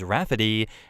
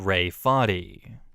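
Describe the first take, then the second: First: It is said as one word, Rafferty. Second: It is said as two parts, Ray Farty. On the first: This is how the parents intend the name. "everyone will understand it as Rafferty" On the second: This is how everyone will actually read the name. "not Ray Farty"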